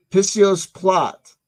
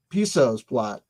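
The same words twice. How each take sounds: First: "Pissio's" said PISS-ee-ohs, high, loud and slow; mispronounced name. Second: "Piso's" said plainly as PIE-sohs; corrected name. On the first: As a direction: draw out "Pissio's plot" theatrically. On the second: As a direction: correct yourself to "Piso's plot". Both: Shown as a demonstration. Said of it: "I'm putting the wrong, wrong emphasis".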